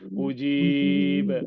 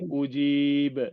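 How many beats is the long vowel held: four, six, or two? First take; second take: four; two. First: The long vowel is held for four beats. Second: The long vowel is held for two beats.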